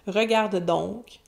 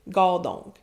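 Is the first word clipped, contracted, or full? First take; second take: full; contracted. First: The verb is said in full, with every syllable. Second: The verb is squeezed into one short syllable.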